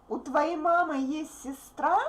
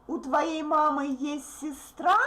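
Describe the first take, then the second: Both takes have the same delivery.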